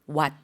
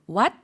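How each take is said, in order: First: The pitch goes down on the word. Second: The pitch goes up on the word. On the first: It means a cold. "일성으로 밑으로 내리는 형태로 발음해 주시면" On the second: It means temple. "삼성으로 what 이라고 올려주었다면"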